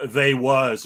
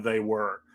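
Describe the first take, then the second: First: "they was" said casually, a little louder. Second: Said in the usual way. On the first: Shown as a demonstration. Guest showing his home dialect, casual "they was". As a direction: drop into a relaxed "they was". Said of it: "regularly say things like". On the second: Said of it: "instead of".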